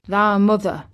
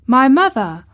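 First: Put-on old Yorkshire gardener's plain answer; lightly voiced old countryman, level pitch; Ben Weatherstaff. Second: Put-on startled boy's question, high and loud; surprised child, voice lifting sharply; Colin. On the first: Old gardener answers Colin about his mother, plainly. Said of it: "answered Ben Weatherstaff". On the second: Boy hears his mother mentioned, surprised. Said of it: "said Colin". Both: A narrator's reading.

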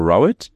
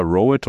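First: "Rowett" with an OW, RAU-et; first syllable like "cow". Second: "Rowett" with a long OH, ROH-et; first syllable like "row" a boat. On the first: Host offering guest a second option, OW sound in "Rowett". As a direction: say "Rowett" as RAU-et, opening like "loud". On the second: Host checking guest's surname, long OH in "Rowett". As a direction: say "Rowett" as ROH-et, rhyming with poet. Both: Shown as a demonstration. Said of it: "is it pronounced".

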